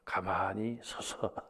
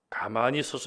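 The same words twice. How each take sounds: First: It is said softly. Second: It is said loudly.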